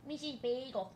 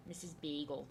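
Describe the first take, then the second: First: Higher cooing "Missus Bagel"; pet talk. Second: Said in the usual way. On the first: Real, not acted. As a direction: coo the cat's name fondly. Cooing to her cat.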